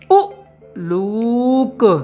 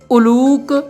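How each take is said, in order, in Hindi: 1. पहला स्वर तेज़ है और एक विराम से अलग होता है। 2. शब्द बिना रुकावट के सहजता से बोला जाता है।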